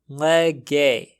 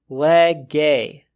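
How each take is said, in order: No difference in how they are said.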